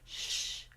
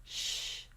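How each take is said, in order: First: The shh flows smoothly and evenly. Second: The same.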